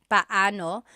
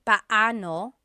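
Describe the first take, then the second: The two takes are said the same way.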